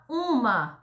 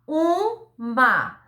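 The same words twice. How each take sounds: First: Said in the usual way. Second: "uma" split into a long U, pause, MA; sílaba por sílaba. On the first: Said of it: "A palavra". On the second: Shown as a demonstration. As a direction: separate the two syllables of "uma". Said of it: "Tem duas sílabas". ("uma" pausadamente, U e MA separados)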